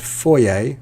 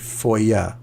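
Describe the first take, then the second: First: British pronunciation, ending in an 'ay' sound. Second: American pronunciation, with a different ending sound. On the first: "I'm from the U K, and I, I say this word foyer like that, A at the end" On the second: "in America, they pronounce it differently. They say foyer"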